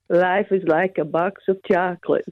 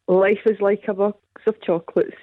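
First: It is said imitating Forrest Gump's voice. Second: It is said in her own normal voice.

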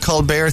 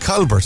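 First: The name is pronounced in a French-sounding way. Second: The name is pronounced in a plain English way. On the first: It is a put-on, fancy version of the name. "Making it sound French" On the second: It is the name's original Irish form. "Whereas in fact he's Colbert"

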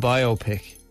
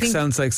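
First: It is said as bio plus pic. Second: It is said rhyming with myopic. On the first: It is a picture about a life. The speaker calls it right. "as in a picture and it's the biography" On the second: It sounds like a medical procedure. The speaker calls it wrong. "sounds like a medical procedure"

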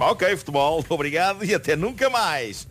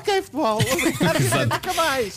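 First: It is said in his normal voice. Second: It is said in a high, thin voice.

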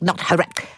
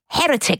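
First: The stress is on the second syllable. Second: The stress is on the first syllable. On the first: The speaker calls it wrong. "not the second" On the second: The speaker calls it right. "It goes on the first, not the second"

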